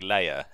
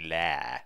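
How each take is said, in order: First: The word is said with two syllables. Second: The word is said with one syllable. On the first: The speaker calls it wrong. "I always say it like layer" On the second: The speaker calls it right. "it should really rhyme with hair"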